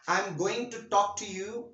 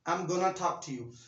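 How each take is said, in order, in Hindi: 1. "Going to" पूरे दो शब्दों में बोला जाता है। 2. "Going to" को छोटा करके "gonna" बोला जाता है। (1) "एक बड़ा लंबा सेंटेंस हो गया" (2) "आप सिंपल इसको कहेंगे I am गोना talk to you"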